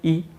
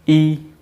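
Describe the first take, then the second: First: The vowel is held only briefly. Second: The vowel is held for longer. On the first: "छोटी ई बोलेंगे" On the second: "बड़ी ई बोलेंगे"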